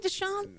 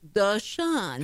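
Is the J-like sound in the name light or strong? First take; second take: strong; light. First: The J-like sound in the middle is strong. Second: The J-like sound in the middle is light. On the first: The speaker calls it wrong. "You add too much J into it" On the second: The speaker calls it right. "There you go"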